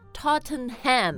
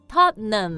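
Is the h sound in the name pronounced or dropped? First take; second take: pronounced; dropped. First: The h sound is pronounced in the middle. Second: The h sound is dropped from the middle. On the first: The speaker calls it wrong. "Because the spelling, you want to say Tottenham" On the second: The speaker calls it right. "But actually they say"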